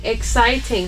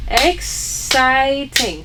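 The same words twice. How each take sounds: First: Said in the usual way. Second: "Exciting" drawn out slowly in three separate syllables. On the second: Shown as a demonstration. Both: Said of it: "How many syllables?".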